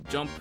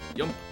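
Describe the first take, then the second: First: The word begins with a J sound. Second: The word begins with a Y sound. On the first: "the word jump" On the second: "a messed up pronunciation of the word jump"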